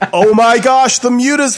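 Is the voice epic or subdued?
subdued. It is said in a plain, subdued voice.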